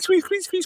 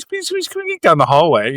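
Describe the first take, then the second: First: High, soft squeak imitation; squeaky wheel noise. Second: Said in the usual way. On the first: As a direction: mimic a cartoon cart wheel squeaking. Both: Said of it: "So it was like, squeak".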